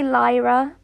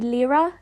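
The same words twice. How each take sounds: First: The name is said the usual English way. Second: The name is said the Irish way. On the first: "I would say Lyra" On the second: "in Irish, that's usually Lyra"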